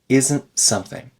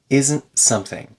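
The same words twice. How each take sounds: Both takes have the same delivery.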